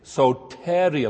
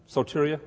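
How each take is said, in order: First: Soteria said very slowly with a falling, settled tune; confident slow take on Soteria; careful pronunciation. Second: Soteria? asked with a rising, doubtful tune; tentative first try at Soteria; unsure pronunciation. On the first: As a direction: spell out Soteria slowly and firmly. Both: Shown as a demonstration. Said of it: "Accent in the right place?".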